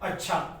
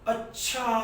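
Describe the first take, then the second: First: It is said as calm agreement. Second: It is said as an exclamation of surprise. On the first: The listener accepts what was said. "जब हम किसी बात की स्वीकृति देते हैं" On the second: The listener is astonished by what was said. "विस्मयादि बोधक चिन्ह लगा... आश्चर्य की बात हो रही है"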